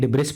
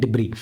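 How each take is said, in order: First: It starts with 'dib' and ends with 's'. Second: It starts with 'dib' and has no final 's'. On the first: The speaker calls it wrong. "ना ही डिब्रिस पढ़ते" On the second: The speaker calls it right. "ऐसा हमारा silent हो जाता है, इसको पढ़ते हैं डिब्री"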